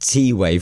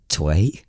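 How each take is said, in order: First: The letter T and way are said separately. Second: The name is run together as one syllable. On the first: "we are correct by pronouncing it" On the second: "is it Tway?"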